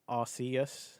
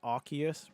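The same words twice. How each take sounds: First: The name begins with a soft 'ars' sound. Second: The name begins with a hard 'ark' sound. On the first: "the natural way I would pronounce it as a Brit" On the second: "split it down the middle, Arc and Eus"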